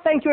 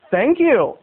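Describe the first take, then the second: First: Higher, quick sarcastic thanks; mock thanks, said with sarcasm. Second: Slightly raised, earnest thanks; unsarcastic thanks. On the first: Shown as a demonstration. Storyteller shows the reply it wasn't, sarcastic. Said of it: "in a sarcastic way". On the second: Retold or imitated. Stretching man answers teasing kids, sincerely. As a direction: imitate someone taking it as a compliment. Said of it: "He literally took it as a compliment".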